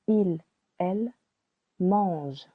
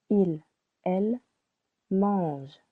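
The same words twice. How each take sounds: The two takes are said the same way.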